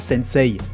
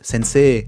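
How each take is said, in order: First: The i after the e is sounded separately. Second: The e is lengthened with no separate i. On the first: The speaker calls it wrong. "On dit pas sensei" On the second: The speaker calls it right. "on devrait prononcer avec un autre e là derrière pour donner deux temps à la syllabe e"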